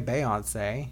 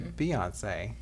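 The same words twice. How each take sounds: First: The first syllable sounds like "bay". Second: The first syllable sounds like "bee". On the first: The speaker calls it wrong. "You don't say Beyonce" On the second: The speaker calls it right. "You say Beyonce"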